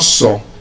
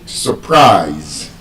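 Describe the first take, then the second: First: The stress is on the first syllable. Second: The stress is on the second syllable. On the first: The speaker calls it wrong. "it's not" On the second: The speaker calls it right. "it is stressed on the second syllable"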